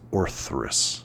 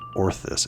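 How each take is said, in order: First: There is an 'r' sound after the 'th'. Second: There is no 'r' sound after the 'th'. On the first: The speaker calls it right. "a few more letters in there" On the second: The speaker calls it wrong. "I think I've been saying it wrong"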